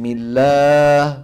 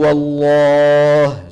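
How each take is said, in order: First: The L is pronounced light, with a flat tongue. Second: The L is pronounced heavy, with a hollowed tongue. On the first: "فتبقى اللام على أصلها من الترقيق" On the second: "تفخم العرب اللام بإجماع في لفظ الجلالة الله، وذلك إذا سبق بفتحة أو بضمة"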